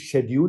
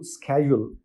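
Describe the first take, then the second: First: The word begins with an sh sound. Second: The word begins with an sk sound. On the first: "उसको लोग शेड्यूल भी बोलते हैं" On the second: "स्केड्यूल भी कह सकते हैं"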